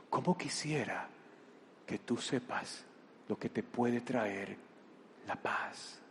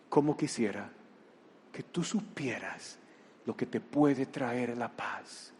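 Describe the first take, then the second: First: Slow, softer plea that fades to a whisper; near whisper. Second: Tender, soft plea. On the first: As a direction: breathe it out slowly, tenderly. Jesús repite, casi susurrando. (súplica lenta, casi susurrada) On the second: Jesús habla con ternura. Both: Acted.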